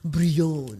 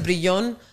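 First: It is said the French way. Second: It is said the Puerto Rican Spanish way.

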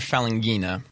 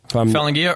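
First: It ends with an n sound before the a. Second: It ends without an n sound before the a. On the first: "Falanghia or Falanghina?" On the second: "Falanghia or Falanghina?"

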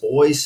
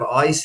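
First: The vowel sounds like oy, in the brogue. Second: The vowel sounds like eye, the standard way. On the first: "speak in the old English brogue" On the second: "instead of ice"

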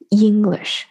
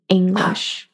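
First: The first syllable sounds like Chinese 'ying'. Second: The first vowel is made further back. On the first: The speaker calls it wrong. "错的发音里面是有一个中文字，就是像英语的英，它会带进去" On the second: The speaker calls it right. "它是在更靠后的这么一个音"

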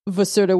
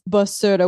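First: The word begins with a V sound. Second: The word begins with a B sound. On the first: This is the mainland way of saying it. "continent is basura with a V" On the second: This is the Azorean way of saying it. "Azorean is basura with a B"

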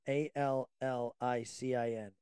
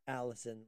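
First: It does not sound like the name Alison. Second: It sounds like the girl's name Alison. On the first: The speaker calls it right. "but allicin" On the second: The speaker calls it wrong. "not allicin like a girl"

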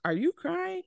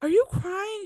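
First: It is said flatly, without concern. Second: It is said with a shocked, concerned gasp.

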